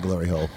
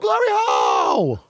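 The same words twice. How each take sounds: First: It is said in a flat, unexcited way. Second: It is said with lively, excited energy. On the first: The speaker is indifferent to the answer. The speaker calls it wrong. "You're just like, yeah" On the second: The speaker is thrilled about the answer. The speaker calls it right. "Gonna be like, woo"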